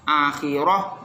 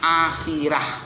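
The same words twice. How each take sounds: First: The r sound is thick and heavy. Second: The r sound is thin and light. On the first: The speaker calls it wrong. "Roknya tidak dibaca tafkhim" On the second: The speaker calls it right. "roknya dibaca tarqiq"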